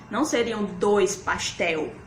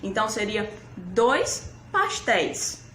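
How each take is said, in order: First: "dois pastel" said as the wrong form, pastel ending in "éu"; wrong plural. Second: "dois pastéis" with the "éis" ending said clearly; correct plural. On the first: Teacher models the wrong plural "dois pastel" for pupils. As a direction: say "dois pastel", the mistake kids make. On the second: Teacher gives pupils the correct plural "dois pastéis". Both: Shown as a demonstration. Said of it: "Fica errado falar assim".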